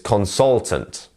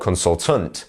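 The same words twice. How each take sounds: First: The stress is on the middle syllable. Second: The stress is not on the middle syllable. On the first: The speaker calls it right. "It's consultant" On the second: The speaker calls it wrong. "or consultant"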